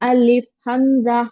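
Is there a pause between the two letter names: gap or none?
none. The two names run together without a gap. The speaker calls it right. "बीच में गैप नहीं रखना आपको"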